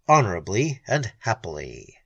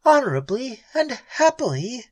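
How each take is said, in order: First: Said in the usual way. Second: High, incredulous bitter echo; bitter echo of the hero's words. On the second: Acted. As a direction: throw his words back at him, bitter. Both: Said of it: "she echoed bitterly".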